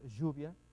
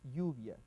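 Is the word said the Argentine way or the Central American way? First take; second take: Argentine; Central American. First: The word is said the Argentine way. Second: The ll is said like y, as in yu. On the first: "el argentino es lluvia" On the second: "acá la pronunciación es yu"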